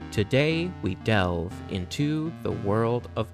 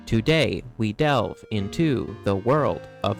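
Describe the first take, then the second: First: The stress follows natural speech rhythm. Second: Stress falls rigidly on every other syllable. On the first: The speaker calls it right. "Let's use the passage I spoke earlier as an example" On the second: The speaker calls it wrong. "If we were to follow this inaccurate definition of an iambic pentameter, my poem would sound like this"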